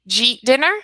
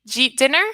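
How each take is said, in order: First: 'Did you eat' merges into one syllable, 'jeet'. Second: 'Did you eat' merges into one syllable, 'jeet'.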